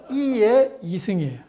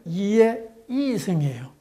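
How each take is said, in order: First: 이의 이승 with a different Gyeongsang tone, pitch a little raised; Gyeongsang pitch accent demo. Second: 이의 이승 with a Gyeongsang-style tone, drawn out slowly; Gyeongsang pitch accent demo. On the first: Lecturer contrasts second 이의 이승 tone pattern for class. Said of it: "그다음에 요걸 읽어보겠습니다". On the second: Lecturer models 이의 이승 tones to class, slow and deliberate. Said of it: "그다음에 요걸 읽겠습니다". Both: Shown as a demonstration.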